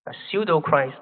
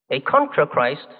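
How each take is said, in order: First: Pseudo leaned on with a falling close; stress on pseudo. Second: Contra leaned on, set against pseudo; stress on contra. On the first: Preacher setting pseudo against contra for listeners, stressing pseudo. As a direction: hit the word pseudo to answer contra. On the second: Preacher setting contra against pseudo for listeners, stressing contra. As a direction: hit the word contra to mark the contrast. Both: Shown as a demonstration. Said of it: "why the distinction must be made".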